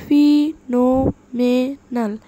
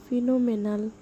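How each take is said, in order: First: ফিনোমেনাল loud and slow, each syllable separate. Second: Said in the usual way. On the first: Shown as a demonstration. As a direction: punch out every syllable of ফিনোমেনাল with gaps between. (ফিনোমেনাল জোরে, ধীরে, ভেঙে ভেঙে) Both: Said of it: "সিলেবলগুলো ভেঙে ভেঙে".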